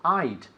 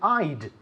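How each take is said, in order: First: The two words merge into one short syllable. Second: The two words merge into one short syllable.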